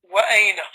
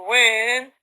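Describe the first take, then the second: First: The glottal stop is fully pronounced, separate syllables. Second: The glottal stop is dropped, one smooth syllable. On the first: Formal, classical speech. "this hamza is always pronounced, and the correct way of saying it is wa'aina" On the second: Casual everyday speech. "they're making this hamza light"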